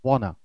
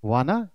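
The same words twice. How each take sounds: First: Wanna said as "wonna"; rounded short o in wanna; correct "wanna". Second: Wanna with a long "waa"; wrong "wanna", read as spelt. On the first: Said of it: "it's wanna". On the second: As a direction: mispronounce wanna as "waana". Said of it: "it's not". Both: Shown as a demonstration.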